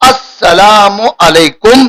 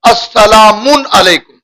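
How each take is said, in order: First: There is no n sound after salamu. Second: An n sound follows salamu. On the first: The speaker calls it right. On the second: The speaker calls it wrong.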